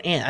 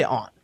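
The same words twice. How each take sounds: First: "aunt" with a short a, as in cat; "ant" pronunciation. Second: "aunt" with a broad, open ah; "ahnt" pronunciation. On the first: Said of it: "I think I've been saying aunt". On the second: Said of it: "I say aunt or aunt". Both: Shown as a demonstration.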